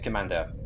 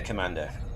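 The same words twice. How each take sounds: First: It is said in a put-on French accent. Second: It is said in the speaker's plain accent. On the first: The speaker calls it right. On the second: The speaker calls it wrong.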